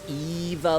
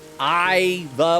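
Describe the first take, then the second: First: The name begins with an 'ee' sound. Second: The name begins with a vowel other than 'ee'.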